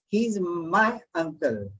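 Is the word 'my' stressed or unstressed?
stressed. The word 'my' is stressed.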